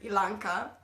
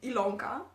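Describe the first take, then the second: First: The middle syllable has an 'a' vowel. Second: The middle syllable has an 'o' vowel. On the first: "I've heard many uh, variations on my uh, name" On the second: "I've heard um, Ilonka. That's nice"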